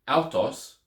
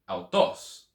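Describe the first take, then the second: First: The stress ignores the written accent mark. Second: The stress falls on the accented syllable. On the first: The speaker calls it wrong. "instead of saying" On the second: The speaker calls it right. "putting it on the right syllable"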